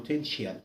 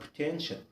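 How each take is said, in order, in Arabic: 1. تُنطق النهاية كأصوات منفصلة t-i-a. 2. تُنطق النهاية كصوت واحد 'shal'. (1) "ما تقولش عليها potential" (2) "اسمها potential"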